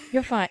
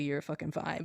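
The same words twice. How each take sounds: First: Said in the usual way. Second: Much softer, muttered exasperation; exasperated under breath. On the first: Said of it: "but, like". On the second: Retold or imitated. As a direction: say it under your breath, fed up. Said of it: "I wanted to say literally".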